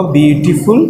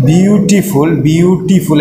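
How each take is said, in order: First: Said in the usual way. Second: beautiful broken into bi-u-ti-ful; beautiful said in separated beats to count syllables. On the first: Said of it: "syllable কয়টা". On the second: Shown as a demonstration. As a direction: sound out each syllable of beautiful. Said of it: "এখানে দেখো syllable কয়টা".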